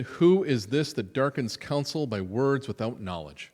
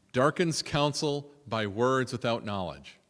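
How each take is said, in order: First: Loud, commanding rebuke; booming declaration. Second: Slow, weighing each word "Darkens"; slow savoring. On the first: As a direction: proclaim "Who is this" as God thundering. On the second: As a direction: linger over "Darkens counsel" slowly. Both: Shown as a demonstration. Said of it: "what a great line".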